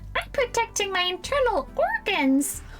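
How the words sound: It is said in a put-on childlike cartoon voice. "in a Ralph Wiggum voice"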